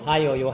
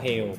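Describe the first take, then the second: First: The word is said in its full longer form. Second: The word is said in its contracted shorter form. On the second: "Diperpendek lebih bagus"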